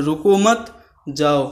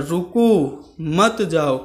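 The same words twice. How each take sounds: First: रुको मत joined and rising, then जाओ; group रुको मत together, break, then जाओ; pause after मत. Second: रुको held with a rise, then मत जाओ; pause after रुको. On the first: Teacher showing the opposite meaning, pause moved to after मत. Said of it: "दूसरे अंदाज से बोल रहे हैं". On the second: Teacher telling someone to stop, clear pause after रुको. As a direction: break after रुको, keep मत जाओ together. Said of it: "रुकने के लिए कह रहे हैं". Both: Shown as a demonstration.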